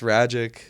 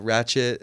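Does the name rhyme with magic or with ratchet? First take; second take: magic; ratchet. First: The name rhymes with magic. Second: The name rhymes with ratchet. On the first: The speaker calls it right. "It's Ragic, like magic" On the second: The speaker calls it wrong. "they they announce it wrong"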